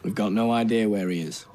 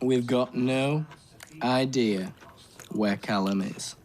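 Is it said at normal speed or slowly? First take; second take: normal; slowly. First: It is said at normal speed. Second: It is said slowly.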